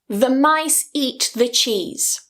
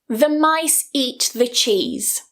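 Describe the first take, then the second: First: Only the key words are stressed; 'the' is weakened. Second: Only the key words are stressed; 'the' is weakened.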